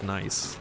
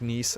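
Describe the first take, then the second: First: The name is said like the English word nice. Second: The name is said with a non-English pronunciation.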